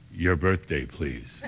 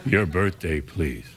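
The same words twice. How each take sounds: First: Very low, dropping to near silence on please; flat bored clerk demand; deadpan clerk. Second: Very low, falling off at please; bored low repetition; deadpan clerk again. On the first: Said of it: "So he said". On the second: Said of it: "He went". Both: Retold or imitated.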